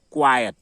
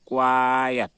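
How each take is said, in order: First: क्वाइट as kwa-yat; two short syllables in क्वाइट, ya before the t; quiet pronunciation. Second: क्वाइट stretched out as kwaaa-yat; drawn-out quiet. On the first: Teacher drilling keep quiet, क्वाइट said briskly as kwa-yat. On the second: Teacher repeating for the class, क्वाइट drawn out as kwaaa-yat. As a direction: hold the first vowel of क्वाइट, then sound yat. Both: Shown as a demonstration. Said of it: "क्या बोलते हैं".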